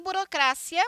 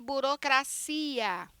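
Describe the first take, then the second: First: "burocracia" stressed on CRA, with short -cia; Spanish stress on CRA. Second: "burocracia" stressed on long CI; Portuguese stress on CI. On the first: Teacher demonstrating Spanish, "burocracia" stressed on CRA. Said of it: "em espanhol". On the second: Teacher showing Portuguese, "burocracia" stressed on CI. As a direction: stretch CI in "burocracia". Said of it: "português". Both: Shown as a demonstration.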